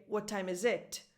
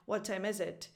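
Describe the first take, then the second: First: "What time is it" with final "it" stressed. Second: "What time is it" with "is" stressed, falling on "it"; correct stress on IS. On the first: Teacher gives the wrong version, stress on IT. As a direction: hit the last word "it". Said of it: "with the stress on it". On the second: Teacher gives the correct version, stress on IS. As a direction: let "it" drop after "is". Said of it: "instead of pronouncing it". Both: Shown as a demonstration.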